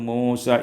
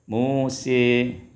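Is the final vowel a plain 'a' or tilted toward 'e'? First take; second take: plain a; tilted e. First: The final vowel is an open 'a' sound. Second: The final vowel is bent toward an 'e' sound.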